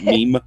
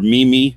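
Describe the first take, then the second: First: The word is said as one syllable, 'meem'. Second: The word is said as two syllables, 'mee-mee'. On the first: The speaker calls it right. "but meme" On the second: The speaker calls it wrong. "or mimi, as I always read it"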